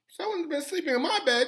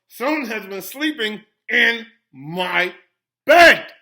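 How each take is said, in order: First: It is said in a wee little voice. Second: It is said in a great big voice.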